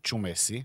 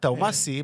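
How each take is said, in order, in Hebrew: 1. השם מתחיל בצליל ch. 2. השם מתחיל בצליל t. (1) "השם שלו זה פטריק צ'ומסי" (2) "והשתרש פה טאומאסי"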